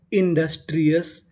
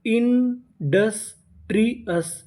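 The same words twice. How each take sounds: First: Said in the usual way. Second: industrious slowly broken into separate syllables. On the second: Shown as a demonstration. Teacher builds a new English word, industrious slowly in pieces. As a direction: draw out each part of industrious, pausing between. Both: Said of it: "तो meaning क्या बनी?".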